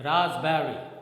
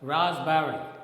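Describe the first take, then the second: First: The p sound in the middle is silent. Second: The p sound in the middle is silent.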